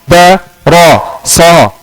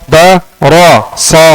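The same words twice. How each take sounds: The two takes are said the same way.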